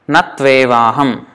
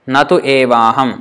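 First: The words run together, with u becoming v. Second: The words are said separately, with u kept.

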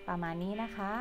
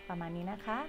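The two takes are said the same way.

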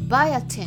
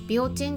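First: The word starts with a 'bai' sound. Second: The word starts with a 'bi' sound. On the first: This is the English pronunciation. The speaker calls it right. "英語でなんて言うと思いますか？ これはね、 バイアティンって言うんです。" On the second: This is the Japanese pronunciation. The speaker calls it wrong. "ビオチンって言わないんですね。"

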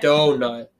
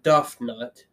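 First: The first syllable is said as 'doe'. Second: The first syllable is said as 'duff'. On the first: The speaker calls it right. "You say" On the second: The speaker calls it wrong. "you don't go"

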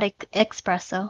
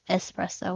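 First: It is said with a 'ks' sound, like expresso. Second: It is said with a plain 's' sound. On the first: The speaker calls it wrong. "Please never say that" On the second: The speaker calls it right. "It's espresso with an S"

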